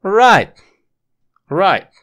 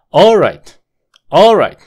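First: "Right" high and loud, "all" barely there; stress on RIGHT. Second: "All right" as ALL-right, first syllable high and loud; stress on ALL. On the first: Teacher correcting the swapped emphasis, stress on second syllable. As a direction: hit "Right" hard, falling. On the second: Teacher showing swapped emphasis as wrong, stress on first syllable. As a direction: punch "All", drop on "right". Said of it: "Si intercambias la sílaba tónica". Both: Shown as a demonstration.

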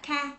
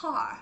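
First: "car" ending on an open vowel, no curled tongue; r-less "car"; "car" without the r. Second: "Car" with tongue curled on the r; r-coloured "Car"; American r in "car". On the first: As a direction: drop the final r of "car". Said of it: "họ không nói là car". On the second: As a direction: model "Car" ending in a strong American r. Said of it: "mà họ nói là car". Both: Shown as a demonstration.

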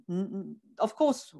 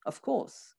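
First: Said in the usual way. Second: Whisper. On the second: Shown as a demonstration. Repeats the answer, fading.

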